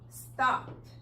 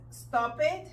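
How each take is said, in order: First: The ending is a bare consonant, no vowel. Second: The ending is an extra syllable with a vowel. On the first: The speaker calls it right. "como si fuera una D o una T al final" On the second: The speaker calls it wrong. "no es stop it"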